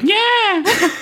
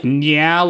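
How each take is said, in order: First: High-pitched startled cat cry; imitated catlike squeal of surprise; surprised cat yell. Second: Said in the usual way. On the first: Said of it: "cat yell a lot when she's surprised". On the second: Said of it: "like, cat yell a lot".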